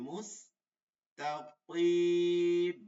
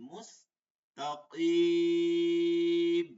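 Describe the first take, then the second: The two takes are said the same way.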